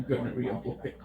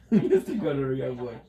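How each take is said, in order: First: Said in the usual way. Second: Louder, laughing through the name; laughing mock title. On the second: Real, not acted. Streamer laughing at an odd character name, louder. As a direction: crack up while calling him mister.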